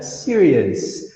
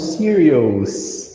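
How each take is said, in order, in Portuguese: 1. O final é falado com um som simples de 'us'. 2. O final é falado com um som de 'o-us'. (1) "tu sempre vai falar us" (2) "não serious"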